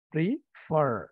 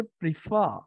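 First: প্রিফার ending in a strong, held R; American prefer. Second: প্রিফার ending on an open "fa" with no R sound; British prefer. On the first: Teacher contrasts the American form for students, heavy final R. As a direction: lean hard on the final R of প্রিফার, "pri-FERR". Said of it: "আর এর উপরে অনেক pressure". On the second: Teacher demonstrates the British form to his students, R dropped. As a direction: say প্রিফার as "pri-FAH", dropping the final R. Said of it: "ফার সাথে এরকম আ". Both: Shown as a demonstration.

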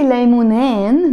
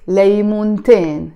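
First: ليمونين said without a T, "laymuneen"; te marbuta dropped. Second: ليمونتين with the T sounded, "laymunteen"; te marbuta pronounced. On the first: Teacher shows learners the wrong dual: ليمونين with no T. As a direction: leave the T out of ليمونين. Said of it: "no, I have to pronounce". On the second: Teacher shows learners the correct dual: ليمونتين with its T. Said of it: "I have to pronounce the te marbuta". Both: Shown as a demonstration.

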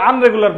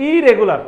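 First: "আনরেগুলার" starting with "un" in place of "ir"; common-error demo, "আনরেগুলার" with an un- opening; wrong prefix. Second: "ইরেগুলার" starting on a clear "ee" sound; correct prefix. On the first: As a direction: say the mistaken form "আনরেগুলার", opening on "aan". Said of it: "এটা রং English". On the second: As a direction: say "ইরেগুলার" as the corrected form, opening on "i". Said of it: "তো এটা হচ্ছে". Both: Shown as a demonstration.

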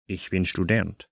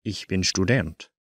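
The two takes are said the same way.

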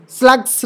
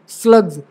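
First: स्लग्स with a hissed final s, "slags"; wrong S ending. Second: स्लग्स ending in a buzzed "gz"; correct Z ending. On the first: Teacher showing how not to say it, s ending. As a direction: end स्लग्स on voiceless s, not z. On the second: Teacher correcting the plural, voiced z ending. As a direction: voice the final s of स्लग्स as z. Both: Shown as a demonstration. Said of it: "स्लग्स नहीं".

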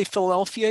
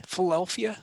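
First: Said in the usual way. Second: Philadelphia squeezed to Fill-delphia, middle syllables swallowed; mock local Philadelphia. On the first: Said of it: "Have you learned how to say Philadelphia yet?". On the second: Teasing a friend about her new Philly accent, swallowed middle. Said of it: "something like that?".

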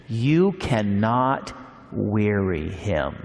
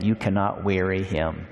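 First: You cannot weary him, slow, each word weighed; emphatic slow reading. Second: Said in the usual way. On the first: Shown as a demonstration. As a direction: let it sink in slowly. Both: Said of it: "pause for a moment about that".

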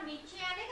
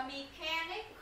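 First: "mechanic" with ch as in "chair"; wrong ch sound. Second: "mechanic" with a hard k for the ch, said slowly; k sound. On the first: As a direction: mispronounce the middle of "mechanic" as "chanic". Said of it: "Mình có đọc mechanic không?". (đọc sai "mechanic" với âm "chờ" ở giữa) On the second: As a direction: model "mechanic" as "me-kanic". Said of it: "khờ, mechanic". (đọc chậm "mechanic" với âm "khờ" ở giữa) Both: Shown as a demonstration.

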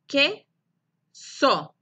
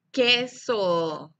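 First: "Queso" in two firm, detached beats; long pause between que and so in "Queso"; separate syllables. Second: "queso" as one whole word, no gap; syllables joined. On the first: Teacher repeats for pupils, "Queso" syllable by syllable. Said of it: "La sílaba que y la sílaba so". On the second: Teacher shows syllables together, "queso" run into one word. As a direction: blend que and so into "queso". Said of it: "Y juntos dicen". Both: Shown as a demonstration.

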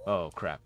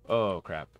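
No difference in how they are said.

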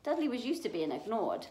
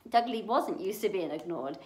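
First: Said in the usual way. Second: "wasn't" hit a little harder; stress on WASN'T. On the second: A narrator's reading. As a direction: correct it by leaning on "wasn't". Rereads, correcting was to wasn't.

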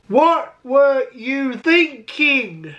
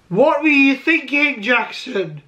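First: Very slow, word by word; slow scolding. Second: Said in the usual way. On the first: Acted. Vlogger scolding his younger self, very slowly drawn out. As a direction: stretch out each word in mock reproach.

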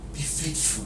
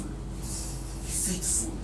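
First: Much softer, spoken almost to himself; soft refrain. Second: Whispered, very slow and drawn out. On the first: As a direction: drop the voice and let it sink in. Preacher repeating the refrain softly. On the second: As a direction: breathe the words out slowly, no voice. Preacher repeating the refrain in a whisper. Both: Real, not acted.

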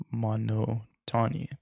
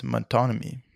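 First: "monotony" drawn out slowly in separate chunks, mo-no-tony; sounding out. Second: Said in the usual way. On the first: Real, not acted. Reader retrying a hard word, sounding out "monotony" slowly.

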